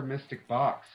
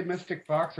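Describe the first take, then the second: First: "Box" said with an initial B sound. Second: "Fox" said with an initial F sound. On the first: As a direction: contrast "Box" by starting it with B. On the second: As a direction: contrast "Fox" by starting it with F. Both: Real, not acted. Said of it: "Did you say Mystic Fox or Mystic Box".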